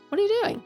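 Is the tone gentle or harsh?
gentle. It sounds gentle and curious.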